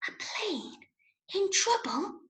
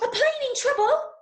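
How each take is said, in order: First: It is said very quietly. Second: It is said very fast.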